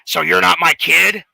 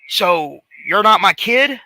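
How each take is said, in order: First: It is said in a gravelly voice. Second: It is said in a plain voice.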